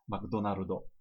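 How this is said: It is said the Japanese katakana way.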